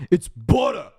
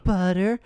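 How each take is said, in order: First: High, loud Boston "butter", r dropped; Boston accent. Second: High, rising "Butter?" with its r sounded; puzzled girlfriend. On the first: Dad correcting the girlfriend, loud mock Boston accent. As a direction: insist on "butter" in broad Boston. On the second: Girlfriend questioning the dad's accent, puzzled high voice. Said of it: "it starts with the girlfriend". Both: Retold or imitated.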